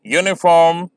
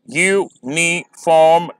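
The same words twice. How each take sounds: First: Said in the usual way. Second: "यूनिफॉर्म" slow, u-ni-form split; syllable by syllable. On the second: Shown as a demonstration. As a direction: count out "यूनिफॉर्म" in three beats. ("यूनिफॉर्म" धीरे, तीन syllable में) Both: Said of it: "आप pronounce करेंगे".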